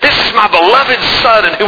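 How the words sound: It is said in a warm, proud tone. A proud, affectionate praise of the son. The speaker calls it right. "I think he was like, just you and me would be, you know, with it"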